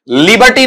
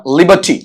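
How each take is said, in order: First: "लिबर्टी" with the r sounded, li-bar-tee; wrong pronunciation. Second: "लिबर्टी" with silent r, li-buh-tee; r-less "लिबर्टी"; correct pronunciation. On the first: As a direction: say "लिबर्टी" higher, pronouncing the r. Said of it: "लिबर्टी नहीं बेटा". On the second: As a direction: say "लिबर्टी" without any r. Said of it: "रे sound कहीं है ही नहीं". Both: Shown as a demonstration.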